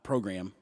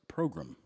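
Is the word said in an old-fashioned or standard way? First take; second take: standard; old-fashioned. First: The word has the ordinary, standard pronunciation. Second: The word has an older, old-fashioned pronunciation. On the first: "Not program" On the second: "That's how my grandfather would say it"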